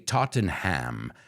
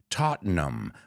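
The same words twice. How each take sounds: First: It is said the way Americans say it. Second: It is said the way English people say it. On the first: The speaker calls it wrong. "an American or a Spaniard would say Tottenham" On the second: The speaker calls it right. "in England they say Tottenham"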